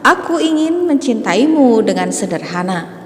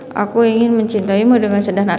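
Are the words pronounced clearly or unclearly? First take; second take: clearly; unclearly. First: The words are pronounced clearly and distinctly. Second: The words are pronounced unclearly and indistinctly. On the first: The speaker calls it right. "tetapi harus jelas" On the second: The speaker calls it wrong. "Jangan membacanya seperti ini"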